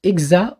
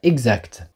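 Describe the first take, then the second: First: The final consonants are dropped. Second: The final consonants are pronounced. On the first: The speaker calls it wrong. "Hélène qui dit « exa »" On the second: The speaker calls it right. "au lieu de dire « exact »"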